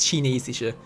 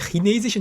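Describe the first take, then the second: First: The ch has the Standard German soft sound. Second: The ch has a Swiss-style throaty sound. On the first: "nicht chinesische" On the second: "ich sage chinesische ... Ist aber so eine Schweizer Angewohnheit halt"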